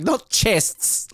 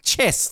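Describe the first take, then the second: First: "chests" said very slowly and set apart; correcting a word. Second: "chess" said plainly and clearly; right word. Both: Shown as a demonstration. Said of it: "The, the chess".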